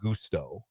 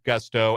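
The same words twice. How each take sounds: First: It is pronounced like the Spanish phrase mucho gusto. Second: It is pronounced like the English word gusto. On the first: The speaker calls it wrong. "not as in mucho gusto" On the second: The speaker calls it right. "as in say it with gusto"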